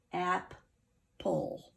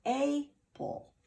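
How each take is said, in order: First: "Ap, pull" with short a closed by p; "Ap" as in apple, then a separate "pull"; short A syllables. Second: "a pull" with a long A, as ay-pull; "a" said like the letter's name, then "pull"; long A misreading. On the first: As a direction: split apple into "Ap", pause, "pull". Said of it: "So to keep this ap". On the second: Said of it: "if this P went with our L E". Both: Shown as a demonstration.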